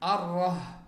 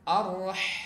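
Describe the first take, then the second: First: The h is swapped for a different throat sound. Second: The h is a smooth breath from the throat. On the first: The speaker calls it wrong. "Jangan sampai dibaca" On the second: The speaker calls it right. "Dia ketika keluar ada nafas yang mengalir. ... sempurnakan ya"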